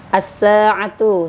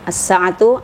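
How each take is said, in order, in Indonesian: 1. Vokal pada 'sa' dibaca panjang. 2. Vokal pada 'sa' dibaca pendek. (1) "sa-nya panjang" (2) "sa-nya pendek"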